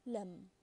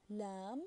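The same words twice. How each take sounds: First: Lam with a short, quick a; short vowel. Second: Lam with a long, stretched a; long vowel. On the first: Teacher showing the difference, lam with short a. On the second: Teacher showing the difference, lam with long a. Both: Shown as a demonstration. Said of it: "I hope you can hear the difference".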